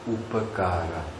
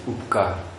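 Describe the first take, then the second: First: Every vowel is pronounced in full. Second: The inner and final vowels are dropped. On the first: This is the full Sanskrit form. The speaker calls it right. "Say upakara" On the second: This is the everyday vernacular form. The speaker calls it wrong. "we say upkar"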